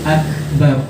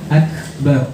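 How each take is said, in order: No difference in how they are said.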